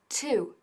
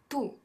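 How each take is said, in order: First: It is said with an English t sound. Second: It sounds like the Spanish word tú. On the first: The speaker calls it right. "sino to, to con el t" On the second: The speaker calls it wrong. "es muy importante que no digamos tú"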